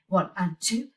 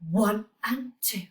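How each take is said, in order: First: The counting is at a fast pace. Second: The counting is at a medium pace.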